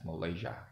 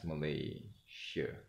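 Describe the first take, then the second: First: The final vowel is a clear open 'a'. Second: The final vowel is a weak 'e' sound. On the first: This is the eastern Malaysian pronunciation. "For the east part, we pronounce it as Malaysia as it is because it ends with an A" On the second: This is the Peninsular Malay pronunciation. "But for the peninsula, they pronounce it as Malaysia"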